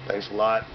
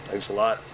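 No difference in how they are said.

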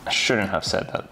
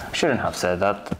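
The two takes are said the same way.

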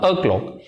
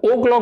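First: अ क्लॉक with a short "uh" first; unrounded schwa to open अ क्लॉक. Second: ओ क्लॉक with a round "oh"; full O vowel at the start of ओ क्लॉक; wrong long O. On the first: Teacher corrects students, अ क्लॉक with short "uh". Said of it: "ओ क्लॉक नहीं बोलना". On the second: Teacher tells students what not to say, ओ क्लॉक with "oh". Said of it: "नहीं बोलना". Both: Shown as a demonstration.

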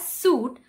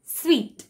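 First: Suit said soot; mispronounced suit; wrong suite. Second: Suite said sweet; correct suite. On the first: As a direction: say suit like the clothing. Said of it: "Many people tend to pronounce it as suit". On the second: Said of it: "the actual pronunciation is suite". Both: Shown as a demonstration.

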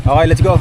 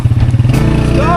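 First: Said in the usual way. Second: High, loud, breathy let's go; excited shout. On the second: Real, not acted. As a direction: yell it out as the ride sets off. Shouted take right after.

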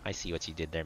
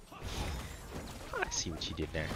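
First: Said in the usual way. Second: Slow whispered repeat; slow knowing whisper. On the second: Shown as a demonstration. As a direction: breathe it out slowly.

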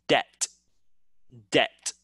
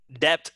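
First: "debt" said as det, carefully separated; "debt" rhyming with pet; silent B. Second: "debt" said as deb-t; "debt" with the B voiced; wrong, sounded B. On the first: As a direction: say "debt" with no B at all. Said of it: "We say like D E T". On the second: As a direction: pronounce both B and T in "debt". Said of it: "that's wrong". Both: Shown as a demonstration.

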